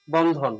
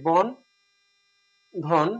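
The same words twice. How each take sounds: First: Said in the usual way. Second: বন আর ধন আলাদা করে, মাঝে লম্বা বিরতি; syllables split apart. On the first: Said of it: "এভাবে লিখি". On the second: Shown as a demonstration. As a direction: say বন, pause, then ধন as two separate syllables. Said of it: "যদি এভাবে লিখি". (বন ... ধন, দুই অক্ষর ভেঙে ভেঙে)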